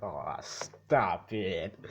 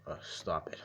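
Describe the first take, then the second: First: Drawn-out, very slow bashful "Aw, stop it". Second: Lower, bashful "Uh, stop it", played down; shy stop it. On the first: Retold or imitated. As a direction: stretch "stop it" out slowly like a flattered kid. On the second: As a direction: mumble "stop it" lower, a flattered son brushing off praise. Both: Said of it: "but he says it, like".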